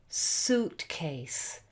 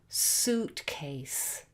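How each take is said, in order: The two takes are said the same way.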